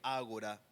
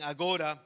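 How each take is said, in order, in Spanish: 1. El acento está en la primera sílaba. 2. El acento no está en la primera sílaba. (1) "tiene acento en la A" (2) "Algunos dicen agora"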